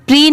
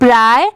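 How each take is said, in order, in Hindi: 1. स्वर 'ee' जैसा सुनाई देता है। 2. स्वर 'eye' जैसा सुनाई देता है। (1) "पी आर आई की साउंड प्री नहीं पढ़ेंगे" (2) "यहाँ पर क्या आ रही है इसकी साउंड?"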